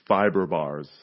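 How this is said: It is said in an American accent.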